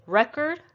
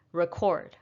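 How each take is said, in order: First: Record as REK-erd, higher and rising; stress on first syllable. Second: Record as rih-KORD, settling down; weight on KORD in record; stress on second syllable. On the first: Teacher recapping the pair, record stressed on REK. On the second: Teacher recapping the pair, record stressed on KORD. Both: Shown as a demonstration. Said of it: "it's not just the stress that is shifted".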